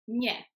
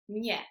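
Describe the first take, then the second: First: The n is soft, like Spanish ñ. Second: The same.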